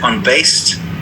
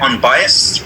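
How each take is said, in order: First: The middle syllable is clipped, sounding like unbased. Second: The middle syllable is full, with a clear bye sound. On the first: The speaker calls it wrong. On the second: The speaker calls it right.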